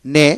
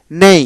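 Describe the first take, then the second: First: নে with a pure e vowel; American pronunciation. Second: নেই with a clear e-to-i glide; British pronunciation. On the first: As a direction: say নে without a final i sound. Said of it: "প্রথমটি হলো American". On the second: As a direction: close the vowel of নেই on an i. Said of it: "দ্বিতীয়টি British". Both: Shown as a demonstration.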